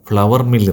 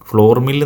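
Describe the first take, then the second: First: Flour is said like the word flower. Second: Flour is said like the word floor. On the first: The speaker calls it right. "ഫ്ലവർ mill എന്നാണ്" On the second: The speaker calls it wrong. "ഫ്ലോർ mill എന്നല്ല അതിൻ്റെ ഉച്ചാരണം"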